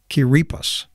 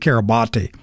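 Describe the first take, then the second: First: The name is said unlike its spelling. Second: The name is said just as it is spelled. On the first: The speaker calls it right. "but I think it's like Kiribati" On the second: The speaker calls it wrong. "to me it looks like it ought to be Kiribati"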